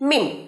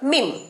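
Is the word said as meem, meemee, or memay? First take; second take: meem; meem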